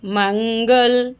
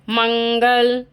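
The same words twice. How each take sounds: First: मंगल stretched very slowly, the ं held in the nose; slow nasal demo. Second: मंगल with the ं hummed through the nose; nasal anusvara demo. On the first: Teacher repeating मंगल very slowly for the class. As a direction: draw out मंगल with a long nasal hum. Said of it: "है ना". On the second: Teacher showing the nasal sound in मंगल. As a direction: let मंगल ring in the nose. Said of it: "लग रहा है". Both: Shown as a demonstration.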